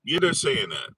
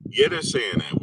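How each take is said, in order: First: Said in the usual way. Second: Mock squeak.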